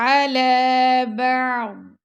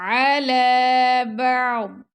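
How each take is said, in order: Both takes have the same delivery.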